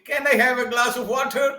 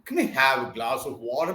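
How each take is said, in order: First: "Can" is said fully with a clear vowel. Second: "Can" is reduced to a weak "kin" sound. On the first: The speaker calls it wrong. "They don't say" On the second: The speaker calls it right. "they say kin, kin"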